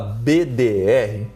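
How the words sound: The letters are said with Portuguese letter names. This is the casual everyday way locals say it. The speaker calls it wrong. "linguagem coloquial aqui, aportuguesada"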